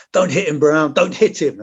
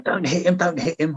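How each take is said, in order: First: Raised, higher mock yell of an urgent officer; retold shout. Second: Officer still pleading. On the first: Officer yelling at soldier not to hit kid, mock shout. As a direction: bark the order like a panicked officer, half-acted. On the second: Retold or imitated. Officer keeps urging soldier to leave kid alone, mild imitation. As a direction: echo the officer's fretful plea, lightly voiced. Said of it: "This officer was still going".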